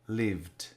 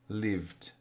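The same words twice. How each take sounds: The two takes are said the same way.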